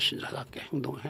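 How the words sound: The line is delivered in a menacing, scary way.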